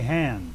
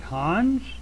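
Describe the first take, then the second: First: The name is said with an anglicized pronunciation. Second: The name is said with its original-language pronunciation. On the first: "or you can say Hans" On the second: "which is probably what it is in the original language"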